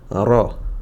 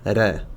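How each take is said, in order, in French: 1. Le r est lourd et remplit la bouche. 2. Le r est léger et fin. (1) "mais bien" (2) "et pas"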